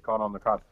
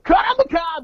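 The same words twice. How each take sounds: First: It is said flatly, without energy. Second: It is shouted with loud heavy-metal energy.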